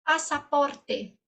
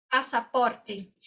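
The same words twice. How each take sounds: First: Slow syllables. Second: "pasaporte" said syllable by syllable, slowly; slow, clear "pasaporte". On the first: Teacher modelling "Pasaporte" slowly for students. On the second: Teacher repeating "pasaporte" slowly for students. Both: Shown as a demonstration. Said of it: "saída".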